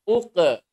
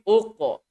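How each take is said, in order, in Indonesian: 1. Bunyi q itu ringan dan tipis. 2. Bunyi q itu berat dan tebal. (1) "Jangan baca uqe" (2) "tapi uqo"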